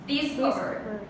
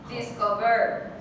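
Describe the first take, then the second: First: The stress is on the first syllable. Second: The stress is on the third syllable. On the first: "If it was on the first one, how would it sound?" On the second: "If it was on the third one"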